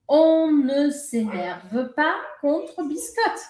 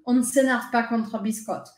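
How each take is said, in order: First: The sentence is spoken slowly and carefully. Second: The sentence is spoken quickly and smoothly. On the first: "Se eu falasse isso devagarzinho, ficaria assim" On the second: "Mas ela fala rápido"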